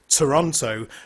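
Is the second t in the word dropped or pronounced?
pronounced. Every t is pronounced, in a British accent. "as a Brit, I say Toronto"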